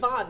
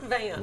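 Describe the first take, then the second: First: The vowel is an 'o' sound, like 'on'. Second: The vowel is an 'a' sound, like 'an'. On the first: The speaker calls it right. "Ludwig von, not Van" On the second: The speaker calls it wrong. "not Van"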